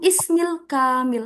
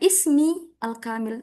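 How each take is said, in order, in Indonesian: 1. Kata-katanya disambung menjadi satu bentuk yang menyatu. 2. Kata-katanya diucapkan terpisah, tidak disambung.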